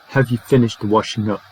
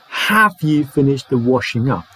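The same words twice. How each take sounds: First: The word have is reduced to a short weak form. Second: The word have is said fully, not reduced. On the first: The speaker calls it right. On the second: The speaker calls it wrong. "So it's not"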